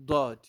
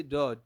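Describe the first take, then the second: First: "Dod" with a heavy DH-like D, loud; punched "Dod", not a plain D; emphatic Daad. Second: Said in the usual way. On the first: Shown as a demonstration. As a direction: press tongue sides to the teeth on "Dod". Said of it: "But this is Dod". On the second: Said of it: "that is D".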